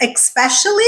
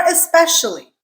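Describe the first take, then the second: First: Especially said as ek-SPESH-ully; common mispronunciation. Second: Especially said as es-SPESH-ully; correct pronunciation. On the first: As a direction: put a K sound into especially: "expecially". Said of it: "why some people say especially". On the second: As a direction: say especially with a clean S, no K. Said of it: "so it's especially". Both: Shown as a demonstration.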